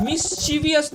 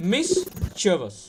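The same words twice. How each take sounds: First: Higher মিসচিভিয়াস as "mis-CHI-vi-as"; four syllables in মিসচিভিয়াস; wrong extra "i" in মিসচিভিয়াস; common mispronunciation. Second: Slow মিসচিভিয়াস as "MIS... che-vas"; three-syllable falling মিসচিভিয়াস; correct pronunciation. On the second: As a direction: pause after the first syllable of মিসচিভিয়াস. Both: Shown as a demonstration. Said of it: "মিসচিভিয়াস না কিন্তু".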